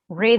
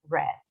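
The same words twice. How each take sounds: First: It is said the present-tense way. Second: It is said the past-tense way. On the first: The reading happens now. "read en presente" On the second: The reading happened before. "en pasado se escribe igual y se dice read"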